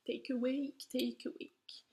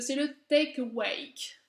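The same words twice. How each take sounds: First: Quiet whispered rehearsal of Take Awake; whispered practice. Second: Said in the usual way. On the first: Shown as a demonstration. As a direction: whisper the English name Take Awake to yourself, testing the sounds. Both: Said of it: "désolée encore pour l'accent".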